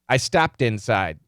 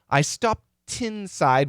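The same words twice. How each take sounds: First: Stopped ends in a D, linked into inside. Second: Stopped ends in a T, not linked to inside. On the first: The speaker calls it right. "It's a D sound" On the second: The speaker calls it wrong. "So this we don't say"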